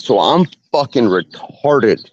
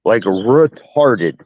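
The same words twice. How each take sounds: First: Said in the usual way. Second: Retarded stretched out slowly and leaned on; Like, retarded said slowly, weight on retarded; slow stress on retarded. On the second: Shown as a demonstration. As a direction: drag out the word retarded for emphasis.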